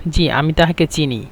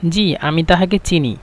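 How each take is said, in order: Both takes have the same delivery.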